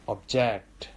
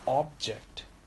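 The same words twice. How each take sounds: First: The stress is on the second syllable. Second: The stress is on the first syllable. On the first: It is used as a verb. "And object as a verb" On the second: It is used as a noun. "Object as a noun"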